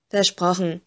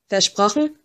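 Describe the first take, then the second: First: "Versprochen" settled as a statement, without the lift; confirming. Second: "Versprochen" with a rising question tune. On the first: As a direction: answer "Versprochen" with a falling, final tune. Giving the promise back. (bestätigend, "Versprochen" ohne fragendes Anheben) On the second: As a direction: let "Versprochen" lift at the end, asking. Asking for a promise. (fragend, "Versprochen" am Ende angehoben) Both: A narrator's reading.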